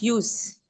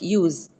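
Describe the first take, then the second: First: The middle consonant is a voiceless S sound. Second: The middle consonant is a voiced Z sound. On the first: The speaker calls it right. "we pronounce it like use, used to" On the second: The speaker calls it wrong. "we don't pronounce it like use, Z"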